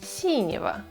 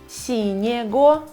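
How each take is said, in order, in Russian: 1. В окончании звук 'v'. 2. В окончании звук 'g'.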